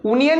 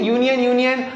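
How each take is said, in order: First: यूनियन said as "oonion", starting on a bare oo with no y sound; teacher demonstrates the wrong way: यूनियन as "oonion", no y; wrong pronunciation. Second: यूनियन said as "yoonion", opening clearly on a y sound, twice; teacher gives the right form: यूनियन with a clear y at the start; correct pronunciation. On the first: Teacher shows students the mistake, यूनियन said "oonion" without the y. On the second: Teacher corrects students, यूनियन said "yoonion" with a y, twice. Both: Shown as a demonstration. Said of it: "यूनियन नहीं".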